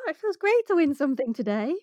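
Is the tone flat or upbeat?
upbeat. It is said in an upbeat, positive tone.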